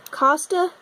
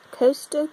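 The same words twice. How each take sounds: First: "Costa" as KAH-stuh, rising; short-o pronunciation. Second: "Costa" as KOH-stuh, rising; long-o pronunciation. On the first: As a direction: say "Costa" with an open ah. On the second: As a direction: say "Costa" with oh, like coast. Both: Shown as a demonstration. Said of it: "I don't know how to say any of these".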